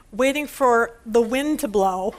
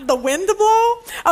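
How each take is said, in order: First: Slow, chuckling through the punchline; slow amused delivery; laughing punchline. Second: "the wind to blow" drawn out slowly, higher, "blow" stretched; slow, higher replay of the punchline; savoring the punchline. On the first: Retold or imitated. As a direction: let a laugh slip into the words. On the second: Shown as a demonstration. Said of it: "repeats the punchline".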